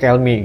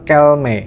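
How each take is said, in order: First: The name ends with an 'ee' vowel. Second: The name ends with an 'eh' vowel. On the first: "dibacanya Kelmi" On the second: "Kelme atau Kelmi"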